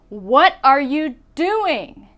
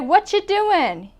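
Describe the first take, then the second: First: The word 'are' is clearly pronounced. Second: The word 'are' is dropped entirely. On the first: It is a real question asking for an answer. The speaker calls it right. "You say, ... because that's a real question" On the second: It is a casual greeting, not a real question. The speaker calls it wrong. "You don't say"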